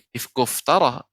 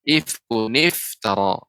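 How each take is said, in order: First: The words join with no 'ni' sound between. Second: The words join with a 'ni' sound between. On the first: The speaker calls it wrong. "bukan menjadi ifkuftara" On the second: The speaker calls it right. "akan tapi ifkuniftara"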